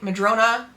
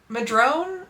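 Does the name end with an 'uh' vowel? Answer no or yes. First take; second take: yes; no. First: The name ends with a final 'uh' vowel. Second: The name ends without a final vowel. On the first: The speaker calls it right. "I have to say it right" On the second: The speaker calls it wrong. "nah, I have to say it right"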